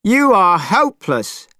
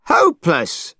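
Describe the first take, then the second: First: High, scornful yell; Monkey losing patience; angry shout. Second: A falling, scornful echo of the word; Monkey repeating his insult; angry repeat. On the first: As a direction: snap it at him in disgust. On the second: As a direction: spit the word out again. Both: Acted. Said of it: "shouted Monkey, angrier than ever".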